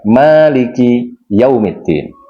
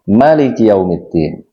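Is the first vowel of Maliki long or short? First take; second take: long; short. First: The first vowel of Maliki is held long. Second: The first vowel of Maliki is kept short. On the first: God is the owner of the Day of Judgment. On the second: God is the king on the Day of Judgment.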